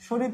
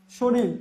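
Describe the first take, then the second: First: Said in the usual way. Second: শরীর ending in l, shoril; dissimilated pronunciation. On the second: Shown as a demonstration. Teacher answering her own question to students, শরীর said shoril. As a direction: swap the final r of শরীর for l. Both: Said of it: "র পরিবর্তিত হয়ে ল হয়েছে".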